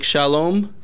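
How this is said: It is said with an American accent. "an American would say something like"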